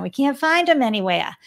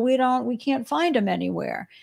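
First: It is said in a put-on Boston accent. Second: It is said in the speaker's ordinary accent.

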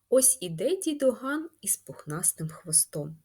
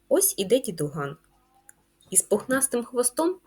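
First: It runs on with no pause after дідуган. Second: There is a pause after дідуган. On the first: The grandfather has a fluffy tail. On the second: The fluffy tail belongs to the next figure, the cat.

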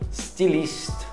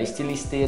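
First: The word starts directly with an S sound. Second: The word starts with an E vowel. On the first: The speaker calls it right. "começa com S" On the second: The speaker calls it wrong. "Não é estiliste, não"

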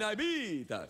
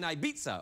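First: It is said in a Dracula-like accent. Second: It is said in a plain American accent.

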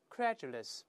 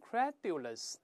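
First: The middle consonant is a j-like sound. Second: The middle consonant is a plain d sound. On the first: The speaker calls it right. "一定发z 这个声音 ... 再来一遍credulous" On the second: The speaker calls it wrong. "注意不要读成credulous"

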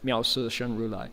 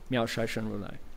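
First: The second syllable is pronounced si. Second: The second syllable is pronounced shai. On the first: "Some people will recite it si" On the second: "Shai is the Manchurian dialect pronunciation"

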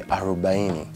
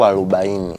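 First: It is pronounced with an R sound. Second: It is pronounced with an L instead of R. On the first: The speaker calls it right. "that's supposed to be 40" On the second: The speaker calls it wrong. "So kwenye R anaika L"

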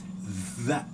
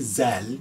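First: It begins with a voiced th sound. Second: It begins with a buzzing z sound. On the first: The speaker calls it right. "you have your tongue trap and forward" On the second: The speaker calls it wrong. "Don't say zel"

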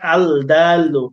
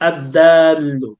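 First: The l is sounded clearly before the d. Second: The l merges into a doubled d sound. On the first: The speaker calls it wrong. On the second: The speaker calls it right.

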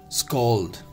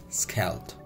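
First: The vowel is said as an 'aw' sound. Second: The vowel is not said as an 'aw' sound. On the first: The speaker calls it right. "S-K-A-W-L-D. Clear? This is scald" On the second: The speaker calls it wrong. "not scald"

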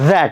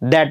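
First: It begins with a soft th sound. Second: It begins with a hard d sound. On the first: The speaker calls it right. "दॅट म्हणणार" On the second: The speaker calls it wrong. "दॅट नाही म्हणणार"

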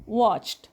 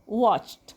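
No difference in how they are said.

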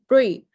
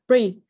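Both takes have the same delivery.

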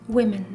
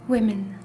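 The two takes are said the same way.

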